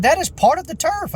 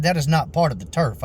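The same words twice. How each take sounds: First: Very high-pitched imitation of an outraged customer; indignant insistence. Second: Said in the usual way. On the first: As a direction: mimic her insisting, voice shooting way up. Customer's side of retold argument.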